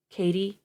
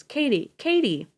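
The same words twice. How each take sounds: First: Husband pleading with his wife to wake; pleads. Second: "Katie" shouted high and loud, falling; husband shouting his unconscious wife's name; calling out. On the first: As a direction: plead gently. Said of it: "Dave pleads". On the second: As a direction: cry her name in alarm. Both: A narrator's reading.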